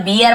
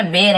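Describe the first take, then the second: First: बियर said as "beer", the common mistake; wrong pronunciation. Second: बेर said as "bair", one short syllable; correct pronunciation. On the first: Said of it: "बहुत सारे बियर बोल देते हैं". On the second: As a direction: say बेर correctly, rhyming with "hair". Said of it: "actual बेर है". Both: Shown as a demonstration.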